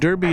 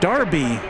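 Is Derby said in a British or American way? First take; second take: American; British. First: Derby is said the way Americans say it. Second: Derby is said the way the British say it. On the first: The speaker calls it wrong. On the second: The speaker calls it right.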